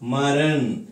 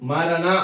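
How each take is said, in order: First: The word ends on the bare final consonant. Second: The word ends with an open final vowel. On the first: The speaker calls it right. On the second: The speaker calls it wrong.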